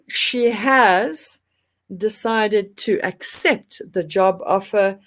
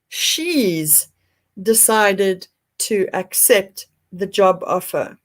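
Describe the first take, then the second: First: She has is said as two full words. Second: She has is contracted into one syllable. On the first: This is the more formal way. "full form" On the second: This is the less formal way. "the contracted form"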